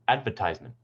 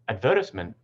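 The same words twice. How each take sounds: First: It has the American stress pattern. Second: It has the British stress pattern. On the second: "In British English"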